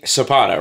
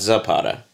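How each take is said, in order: First: The first sound is a soft S. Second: The first sound is a hard Z. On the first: The speaker calls it right. "They don't pronounce the Z" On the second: The speaker calls it wrong. "Not Zapata"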